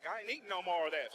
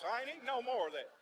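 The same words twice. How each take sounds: First: Said in the usual way. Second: Higher and more emphatic repeat; firmer refusal. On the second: Shown as a demonstration. Comic refusing the grits, emphatic fed-up repeat. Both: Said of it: "repeats it".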